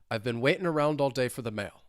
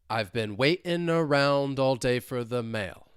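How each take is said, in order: First: The sentence is said quickly at normal pace. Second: The sentence is said slowly with exaggerated melody. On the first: "let's speed it up" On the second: "let's say this two times slowly"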